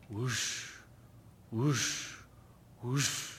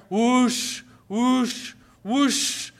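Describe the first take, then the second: First: Quiet low breathy whoosh, imitating a machine; distant soft whoosh; soft whooshing sound. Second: Loud, higher whoosh, imitating a roaring machine; loud whooshing sound. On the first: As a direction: hush out a faint whoosh. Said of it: "she heard this". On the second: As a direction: blast the whoosh out. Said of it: "And then louder".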